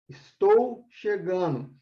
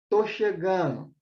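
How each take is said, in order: First: The first word is said in full. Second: The first word is shortened to one syllable. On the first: This is the full standard form. "é uma expressão linguística" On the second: This is the everyday spoken form. "Eu falo, tô chegando"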